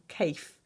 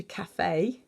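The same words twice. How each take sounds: First: Cafe said "kayf", with a silent final e; cafe as one syllable. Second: Cafe in two syllables, "ka-fay"; cafe with accented E. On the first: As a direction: say cafe to rhyme with safe. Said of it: "turning it from cafe into cafe". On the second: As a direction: sound the final E of cafe as "ay". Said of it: "French accent on the E". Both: Shown as a demonstration.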